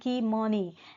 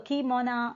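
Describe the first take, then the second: First: The word ends with an 'ee' sound. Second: The word ends with an 'oh' sound. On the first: The speaker calls it wrong. "the mispronunciation of the uh, Canadian whites" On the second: The speaker calls it right. "is the correct pronunciation"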